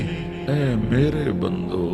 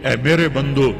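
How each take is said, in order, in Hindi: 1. यह गर्मजोशी और प्यार भरे लहजे में कहा गया है। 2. यह सख़्त, सीधे-सादे लहजे में कहा गया है।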